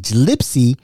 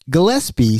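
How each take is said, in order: First: The name begins with a J sound. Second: The name begins with a hard G sound. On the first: The speaker calls it wrong. "Gillespie sounds like a J" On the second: The speaker calls it right. "Gillespie sounds like a G"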